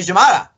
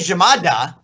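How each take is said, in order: First: The d sound is barely touched. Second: The d sound is pronounced clearly. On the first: "they barely touch that D" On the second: "I say llamada"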